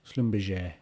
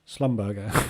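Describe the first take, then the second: First: The ending is said with a soft J sound. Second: The ending is said with a hard G sound. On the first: The speaker calls it right. "that G E R is J" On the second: The speaker calls it wrong. "I'm still going to call it that"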